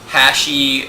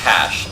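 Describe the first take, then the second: First: An 'ee' vowel follows the final 'sh'. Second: The word ends on 'sh' with no vowel. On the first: The speaker calls it wrong. "or hashi, and no" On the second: The speaker calls it right. "it's just hash"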